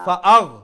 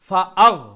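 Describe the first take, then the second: The two takes are said the same way.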